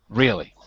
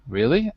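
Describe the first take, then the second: First: The pitch falls at the end. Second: The pitch rises at the end. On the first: "as a falling tone" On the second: "can be used with a rising or falling tone"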